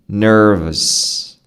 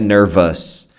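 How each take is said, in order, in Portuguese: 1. A última sílaba é fraca e reduzida. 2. A última sílaba é forte e bem pronunciada. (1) "ele é discreto, ele é baixo" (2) "é não um vus alto, não é nervous"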